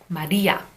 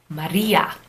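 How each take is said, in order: First: The r is a quick tongue flap. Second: The r is a quick tongue flap.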